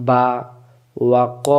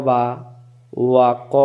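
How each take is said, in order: No difference in how they are said.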